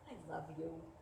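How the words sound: It sounds mean and cutting.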